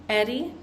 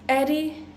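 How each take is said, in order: The two takes are said the same way.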